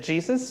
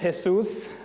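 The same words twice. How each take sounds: First: The stress is on the first syllable. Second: The stress is on the last syllable. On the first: The speaker calls it wrong. "some people may pronounce it Jesus" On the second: The speaker calls it right. "that little accent mark in the U"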